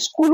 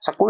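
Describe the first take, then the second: First: It starts directly with 'sk' and no vowel. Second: An extra 'i' vowel is added before 'skool'. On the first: The speaker calls it right. "इसको स्कूल बोलते हैं" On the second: The speaker calls it wrong. "स्कूल नहीं बोलते"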